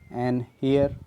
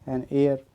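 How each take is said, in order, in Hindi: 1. इस शब्द की शुरुआत में साफ़ h की आवाज़ है। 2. इस शब्द की शुरुआत एक स्वर से होती है, इसमें h नहीं है। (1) "हेयर नहीं होगा" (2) "एयर"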